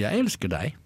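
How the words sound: It is said with strong emphasis on jeg. Nobody else loves you, but the speaker does. "Undertekst, ingen andre, men jeg elsker deg"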